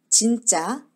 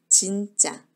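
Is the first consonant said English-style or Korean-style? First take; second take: English-style; Korean-style. First: The first consonant is said with rounded lips. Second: The first consonant is said with unrounded lips. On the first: The speaker calls it wrong. "이거는 영어식 발음인 거죠. 입술을 오므리는 영어식 발음이고" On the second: The speaker calls it right. "한국어의 지읒은 입술을 오므리지 않아요"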